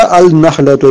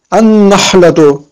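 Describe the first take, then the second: First: Al-nahlatu with the article's l sounded; unassimilated lam. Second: Al-nahlatu with the first l silent and a long n; doubled n. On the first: Teacher warning learners off the mistake, audible first l in "al-nahlatu". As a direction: say "al-nahlatu" with an l before a single n. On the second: Teacher giving the correct reading, "Al-nahlatu" with doubled n. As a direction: turn the article's l in "Al-nahlatu" into a slow, held n. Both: Shown as a demonstration. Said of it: "On ne dit pas".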